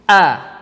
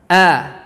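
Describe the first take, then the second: No difference in how they are said.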